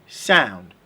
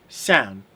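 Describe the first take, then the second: No difference in how they are said.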